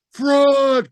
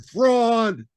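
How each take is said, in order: First: High, loud furious cry; angry crowd cry. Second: Echo. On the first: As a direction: yell it like a mob. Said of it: "cried the maddened thousands". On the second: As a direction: let it ring back like an echo. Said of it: "and the echo answered". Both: Acted.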